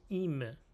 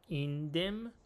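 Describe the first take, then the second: First: It is said merged into one word. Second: It is said as two separate words. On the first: "ادغام" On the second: "هم میتونیم بگیم این دم"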